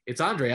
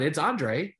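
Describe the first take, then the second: First: Andre as ahn-DRAY, falling firmly; Andre said right. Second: Andre as ahn-DRAY, rising; correcting the name Andre to ahn-DRAY; Andre said right. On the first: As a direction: settle on Andre, ahn-DRAY, with a final fall. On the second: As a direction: give Andre the French ahn-DRAY with a rise. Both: Shown as a demonstration. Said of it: "no, that's not".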